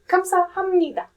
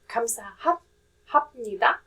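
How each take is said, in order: First: The third syllable ends with an m sound. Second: The third syllable ends with a p sound. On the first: The speaker calls it right. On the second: The speaker calls it wrong. "So it's not"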